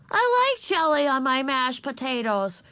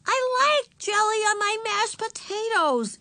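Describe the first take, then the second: First: Put-on high, louder small-child voice; defiant little girl. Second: Put-on very high, slow, sulky child voice; sulky little girl. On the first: Little sister talking back to mother, defiant. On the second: Little sister interrupting again at dinner, sulky. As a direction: drag out the protest, pitched way up. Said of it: "looking sulky". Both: A narrator's reading.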